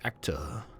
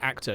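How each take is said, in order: First: The word is stretched out and elongated. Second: The word is said short and plain. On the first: The speaker calls it right. "Elongate your words" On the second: The speaker calls it wrong. "You just don't say the word actor"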